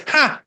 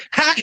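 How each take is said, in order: First: A higher, sharper mocking "Ha!"; scoffing laugh. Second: A short mocking "Ha!"; scoffing laugh. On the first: The Lord laughing at schemers, high scornful scoff. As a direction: toss off a high derisive laugh. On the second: The Lord scoffing at the global elite, short mock laugh. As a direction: bark out one scornful laugh. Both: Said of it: "That's a laugh and a scoff".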